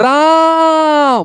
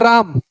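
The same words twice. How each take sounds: First: The name is called loudly with a stretched vowel. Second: The name is said plainly with a normal vowel.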